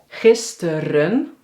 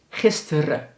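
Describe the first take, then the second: First: The word ends with an audible n sound. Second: The word ends on a schwa without n.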